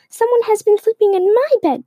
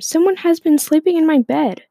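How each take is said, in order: First: The voice is little and squeaky. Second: The voice is big and shouted. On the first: "Baby Bear squeaked in its little voice" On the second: "Papa Bear shouted in his great big voice"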